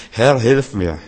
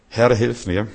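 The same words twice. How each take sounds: First: Louder, pleading cry to the Lord; urgent plea. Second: Said in the usual way. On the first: Acted. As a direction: call out for help as if in need. Preacher voices a desperate plea. (lauter, flehender Hilferuf)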